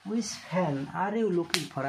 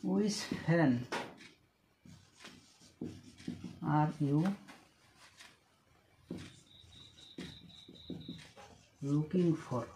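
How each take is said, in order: First: Said in the usual way. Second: Each word slowly apart, long pauses. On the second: Shown as a demonstration. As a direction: dictate it word by word.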